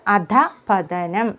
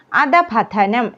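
First: അധപതനം split after a breathed-out അധ; correct pronunciation. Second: അധപതനം run together as one word; wrong pronunciation. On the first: Teacher giving the correct word, split അധപതനം. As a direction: say അധപതനം as "adhah-pathanam". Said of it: "എന്നാണ് പറയേണ്ടത്". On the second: Teacher showing the mistake, run-together അധപതനം. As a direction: say അധപതനം without the break after അധ. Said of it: "എന്നല്ല". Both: Shown as a demonstration.

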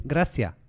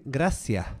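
First: Imitated learner's "gracias", last s not aspirated; foreigner's "gracias", no breathy final h; unaspirated final S. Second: "gracias" with its last s softened to a breath; Canarian-style "gracias", final s aspirated. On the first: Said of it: "pero es que no dicen gracias". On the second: Shown as a demonstration. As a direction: let the end of "gracias" fade into an h. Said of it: "no aspiran la S final".

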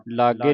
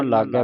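First: ਲਾਗੇ with a closed "ay" ending; wrong vowel ending. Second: ਲਾਗੈ with an open "ai" ending; double-lavan vowel. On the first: Teacher shows congregation the reading to avoid, ਲਾਗੇ with closed e. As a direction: end ਲਾਗੇ on a narrow single-lan e. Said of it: "ਲਾਗੇ ਨਹੀਂ ਪੜ੍ਹਨਾ". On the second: Teacher corrects congregation's reading, ਲਾਗੈ with open ai. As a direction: end ਲਾਗੈ on a wide ai, not e. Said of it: "ਲਾਗੈ ਪੜ੍ਹਨਾ ਹੈ". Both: Shown as a demonstration.

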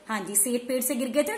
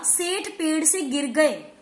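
First: Said in the usual way. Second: Slow reading. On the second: Shown as a demonstration.

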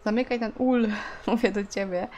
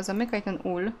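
First: Nagging a character who won't listen; insistent command. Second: Said in the usual way. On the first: Real, not acted. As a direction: order it once more, insisting. Repeats ignored order to game character.

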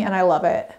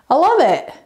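First: Said in the usual way. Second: "I love it" again, higher and louder with "love" punched; gushing repeat. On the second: Real, not acted. Vlogger gushing over her hanging cactus, higher, louder, stress on "love". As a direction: gush it, leaning hard on "love".

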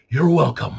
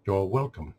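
First: Loud sarcastic courtesy; sarcastic George Carlin. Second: Understated mock-AI courtesy. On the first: Retold or imitated. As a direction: punch it out with mock politeness. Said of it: "push my sarcasm even further". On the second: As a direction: deliver the courtesy evenly, like an AI. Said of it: "trying to get the A I down".

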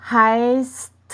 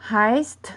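First: Heist stretched long and louder, with s and t separated; slow, emphatic heist showing the st ending; drawn-out st ending. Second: Heißt with a crisp S-T ending; heißt at normal length, ending on st; clear final st. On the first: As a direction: draw out heist, lingering on the s before a clear t. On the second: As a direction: say heißt, sounding both s and t at the end. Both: Shown as a demonstration. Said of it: "สังเกตว่ามันจะออกเสียง".

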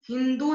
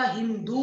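First: हिंदू with a short final u; wrong short ending. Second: Said in the usual way. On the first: Shown as a demonstration. Teacher correcting a mistake, हिंदू with short final u. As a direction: cut the end of हिंदू short. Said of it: "नहीं होता". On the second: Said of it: "होता है".

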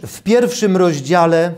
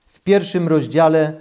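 The two takes are said the same way.

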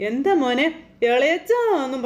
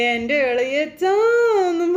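First: Said in the usual way. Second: Very slow, sung-out "ഇളയച്ചാ" stretched long and high; sing-song drawn call. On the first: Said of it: "ഇങ്ങനെ വിളിക്കണം". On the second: Retold or imitated. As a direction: croon "എൻ്റെ ഇളയച്ചാന്നും" like a tipsy teasing call. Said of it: "പറഞ്ഞൊരു വിളി". ("ഇളയച്ചാ" പാട്ടുപോലെ നീട്ടി വിളിക്കുക)

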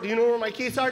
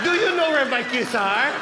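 First: Said in the usual way. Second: Put-on slow, loud accented parroting; mom mocking the question. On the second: Mom repeating her son's stupid question, slow mocking accent. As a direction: throw the question back scornfully, drawn out. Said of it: "Isn't that a stupid question?".

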